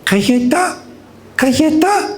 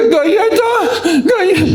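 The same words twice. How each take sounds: First: Put-on high, sweet little-girl plea; tiny child's rising request; sweet toddler voice. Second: Very high, drawn-out mock wail; slow squealed tantrum plea; crying toddler. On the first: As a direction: imitate a toddler asking sweetly, pitched up. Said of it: "con su voz tan dulce dice". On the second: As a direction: imitate a little girl whining tearfully. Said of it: "no llores".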